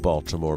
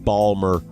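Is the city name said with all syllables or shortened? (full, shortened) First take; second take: full; shortened. First: The name is said with all three syllables. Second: The name is squeezed into two syllables.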